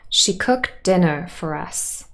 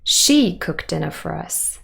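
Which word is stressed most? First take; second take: dinner; she. First: The strongest stress falls on dinner. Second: The strongest stress falls on she. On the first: She cooked, and the meal was dinner. "This is the standard tonic stress. ... Dinner would probably have the main stress here as well" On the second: She, and not someone else, cooked dinner. "we place it on she instead, this is what we call contrastive stress"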